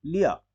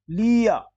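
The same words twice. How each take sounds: First: लिया as a quick "liya"; short i. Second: लिया as loud, high "leeya"; wrong long ee. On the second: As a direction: stretch लि in लिया. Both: Shown as a demonstration. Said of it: "फिर नहीं".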